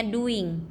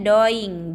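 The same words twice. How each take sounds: First: "doing" said DOO-ing; correct English reading. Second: "doing" said DOY-ing, as written; read as spelled. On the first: Teacher showing students how it is read, English pronunciation. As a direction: say "doing" with an "oo" vowel. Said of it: "dibacanya doing". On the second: Teacher showing students the written form, read as spelled. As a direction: sound out "doing" with an "oy" vowel. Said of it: "tulisannya doing". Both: Shown as a demonstration.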